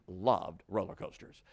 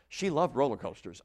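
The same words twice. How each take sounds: First: "loved" drawn out slowly, in a lower pitch; stress on LOVED. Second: Said in the usual way. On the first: Shown as a demonstration. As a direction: stretch the word "loved" for emphasis. Restates it with heavy emphasis.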